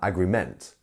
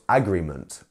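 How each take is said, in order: First: The stress is on the third syllable. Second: The stress is on the first syllable. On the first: "or um, agreement" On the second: "not agreement"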